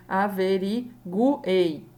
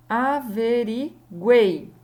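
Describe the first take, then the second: First: "averiguei" broken as a-ve-ri-gu-ei; wrongly split triphthong. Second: Slow, loud "Averiguei" with "guei" as one syllable; joined triphthong. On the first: Teacher showing how averiguei is not said, gu separated from ei. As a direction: split "guei" into gu and ei. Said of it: "Eu não iria dizer". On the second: Teacher giving averiguei as example, last syllable joined. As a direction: stretch "Averiguei", keeping the last syllable whole. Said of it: "uma sílaba só". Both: Shown as a demonstration.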